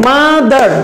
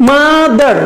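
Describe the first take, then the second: No difference in how they are said.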